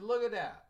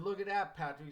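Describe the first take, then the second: First: Higher and louder, punching look; emphatic call. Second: Pitched up, louder, calling his attention; father nudging his son to look; eager pointing out. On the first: Father insisting his son see the smoking women, loud. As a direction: insist he look right now. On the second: Father pointing out smokers to his son, lively and raised. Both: Retold or imitated.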